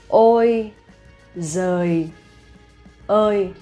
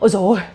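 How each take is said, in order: First: It is said slowly and carefully. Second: It is said quickly and expressively.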